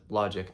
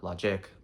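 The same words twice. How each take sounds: First: Logic stressed as LO-gic; stress on first syllable. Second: Logic stressed as lo-GIC; wrong final stress. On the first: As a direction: hit LO in logic. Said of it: "it's said logic". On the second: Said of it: "not logic". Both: Shown as a demonstration.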